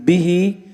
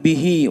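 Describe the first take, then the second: First: It is said as one joined word. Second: It is split into two separate parts. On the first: It sounds like one single word. The speaker calls it right. "وإنما نقول به" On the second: It sounds like two separate words. The speaker calls it wrong. "لا نقول به"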